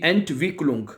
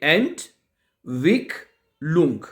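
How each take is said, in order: First: The word is said smoothly without internal pauses. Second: The word is split into separate syllables with pauses.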